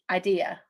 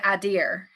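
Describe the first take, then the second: First: The word ends without an R sound. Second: The word ends with an added R sound. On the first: "most people say the word I D E A as I have an idea" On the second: "like it's got an R on it, but it doesn't"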